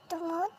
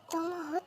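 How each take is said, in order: Both takes have the same delivery.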